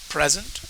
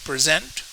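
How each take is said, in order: First: The stress is on the first syllable. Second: The stress is on the second syllable. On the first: It is an adjective. "Most two syllable adjectives will have the stress in the first syllable" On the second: It is a verb. "Most two syllable verbs will have the stress on the second syllable"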